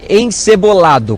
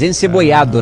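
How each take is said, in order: First: The double L is said as an L sound. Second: The double L is said as a Y sound. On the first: "com dois L's" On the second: "na pronúncia aqui"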